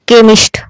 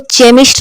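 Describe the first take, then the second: First: The word begins with a k sound. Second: The word begins with a ch sound. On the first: The speaker calls it right. "क्या पढ़ेंगे? केमिस्ट" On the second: The speaker calls it wrong. "अब इसको चेमिस्ट नहीं पढ़ेंगे"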